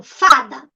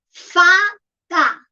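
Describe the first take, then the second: First: Said in the usual way. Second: "Fada" broken in two, a clear pause between Fa and da; "Fada" slowly split into Fa and da; syllable by syllable. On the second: Shown as a demonstration. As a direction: say "Fada" as two separate pieces, Fa... da. Teacher splits word into syllables.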